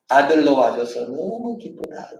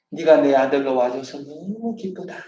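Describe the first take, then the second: First: Slow tender blessing. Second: Tender blessing. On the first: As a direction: say it slowly like a loving father. (아들로 천천히, 다정하게) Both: Shown as a demonstration. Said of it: "너는 내 기쁨이다".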